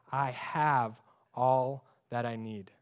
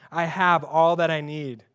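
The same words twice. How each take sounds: First: Slow, softer, lower reading; slow reverent reading. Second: Said in the usual way. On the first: Shown as a demonstration. Preacher reads the verse to the congregation, slow and soft. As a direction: savour each word slowly and softly. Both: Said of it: "N L T says".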